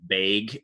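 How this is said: It is said in a central Wisconsin accent.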